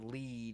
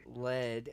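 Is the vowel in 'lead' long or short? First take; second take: long; short. First: The vowel is long, as in bead. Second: The vowel is short, as in bed. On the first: It means to guide. "as in guiding someone" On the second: It names the metal. "as in the metal"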